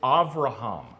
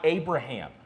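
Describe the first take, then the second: First: The middle consonant is a V sound. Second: The middle consonant is a B sound. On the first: The speaker calls it right. "The B is a V" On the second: The speaker calls it wrong. "It's not Abraham"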